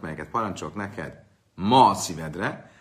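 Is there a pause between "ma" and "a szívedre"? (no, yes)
no. There is no pause after "ma". Take it to heart only today, not tomorrow. The speaker calls it wrong. "ha nem így mondjuk a szöveget"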